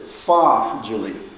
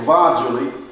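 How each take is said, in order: First: The word begins with a voiceless F sound. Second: The word begins with a voiced V sound. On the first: The speaker calls it right. "He said fa Julie" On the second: The speaker calls it wrong. "He didn't say va Julie"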